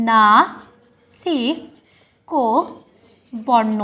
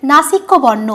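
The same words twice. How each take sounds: First: Very slow, low dictation with long gaps; slow syllable-by-syllable. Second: Said in the usual way. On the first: Shown as a demonstration. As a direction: spell out নাসিক্য বর্ণ syllable by syllable. Teacher dictates the term slowly.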